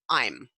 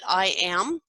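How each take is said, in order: First: It is said as one contracted syllable. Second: It is said as two full words. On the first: "contract to I'm" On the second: "I am will contract to"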